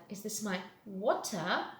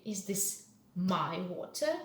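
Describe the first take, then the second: First: "water" picked out with a questioning rise; stress on WATER. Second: Questioning "Is this my water" with "my" picked out; stress on MY. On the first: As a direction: doubt that it is "water", lifting that word. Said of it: "make the stress to the different sound". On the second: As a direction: lean on "my", as if asking whose it is. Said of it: "Not yours, but mine". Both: Shown as a demonstration.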